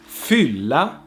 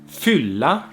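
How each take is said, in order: The two takes are said the same way.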